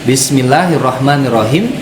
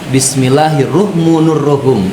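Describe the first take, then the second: First: The vowels in rahman and rahim are a-sounds. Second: The vowels in rahman and rahim are u-sounds. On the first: The speaker calls it right. "itu yang seharusnya" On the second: The speaker calls it wrong. "tetapi dibaca"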